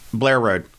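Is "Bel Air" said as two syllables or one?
one. "Bel Air" is run together into one syllable.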